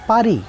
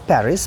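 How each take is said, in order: First: It is said with a French pronunciation. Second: It is said with an English pronunciation. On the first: This is how the French say it. The speaker calls it right. "the correct French pronunciation is Paris" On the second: This is how English speakers say it. The speaker calls it wrong. "Englishmen say it as Paris"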